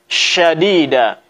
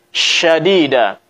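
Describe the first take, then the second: No difference in how they are said.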